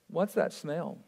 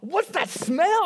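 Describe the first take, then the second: First: It is said in a flat, neutral tone. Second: It is said in a disgusted, repelled tone. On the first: "You never say it like that" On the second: "if it's that bad smell, it's like"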